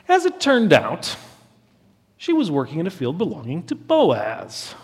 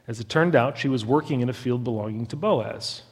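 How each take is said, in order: First: It is read in a knowing, wry tone. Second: It is read in a plain, neutral tone. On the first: The coincidence is no accident at all. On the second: The event is simply reported.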